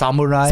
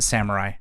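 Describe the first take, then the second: First: It is said with a Japanese-style pronunciation. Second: It is said with an American pronunciation. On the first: "I know it's samurai" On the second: "I'm gonna pronounce it samurai... but I'm American"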